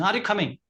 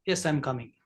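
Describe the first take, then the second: First: Raised-pitch question; high tone question. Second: Low, soft yes; low tone reply. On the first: Teacher demos a high-pitched question to the class. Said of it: "It's a high tone". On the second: Teacher demos a calm low-toned reply. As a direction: drop the voice low and easy. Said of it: "It's a low, low tone". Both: Shown as a demonstration.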